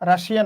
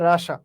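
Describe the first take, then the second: First: The word has three syllables, ending in -shiya. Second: The word has two syllables, ending in -sha. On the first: The speaker calls it wrong. "রাশিয়া না" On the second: The speaker calls it right. "উচ্চারণটা হবে রাশা"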